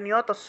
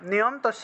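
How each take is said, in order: First: It is said as one unbroken word. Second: It is split into niyam and tasya. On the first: The speaker calls it right. "এটা নিয়তস্য হবে" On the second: The speaker calls it wrong. "নিয়ম তস্য না"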